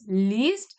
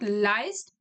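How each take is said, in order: First: The vowel sounds like 'ee'. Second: The vowel sounds like 'eye'. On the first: The speaker calls it right. "it is least" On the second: The speaker calls it wrong. "It is not leist"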